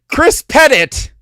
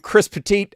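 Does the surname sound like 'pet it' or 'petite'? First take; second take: pet it; petite. First: The surname is said like 'pet it'. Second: The surname is said like 'petite'. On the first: The speaker calls it right. "pet it" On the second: The speaker calls it wrong. "not Petite, as I said it when I first read it"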